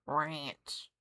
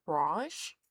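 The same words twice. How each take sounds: First: "Ranch" with a short a, falling; plainly American "Ranch". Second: "Ranch" with a long ah, rising; puzzled imitation of rahnch for "Ranch"; British "ranch". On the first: Shown as a demonstration. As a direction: say "Ranch" low in an American accent. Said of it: "You say it with that accent". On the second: Mimics the British pronunciation again.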